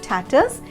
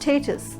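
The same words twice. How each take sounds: First: The first syllable sounds like 'stat'. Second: The first syllable sounds like 'stay'. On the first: The speaker calls it wrong. "we usually pronounce it as status, ... Wrong pronunciation" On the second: The speaker calls it right. "It's stay, S T A Y, stay, tas"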